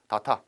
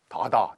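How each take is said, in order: First: The middle consonant is a hard t sound. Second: The middle consonant is a soft d sound. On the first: The speaker calls it wrong. "다타는 아니고" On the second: The speaker calls it right. "다다 이렇게 내게요"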